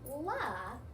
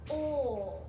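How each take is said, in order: First: A short l sound followed by a vowel. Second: A continuous l sound with no vowel after it. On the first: The speaker calls it wrong. "you're not saying la" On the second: The speaker calls it right. "it's O"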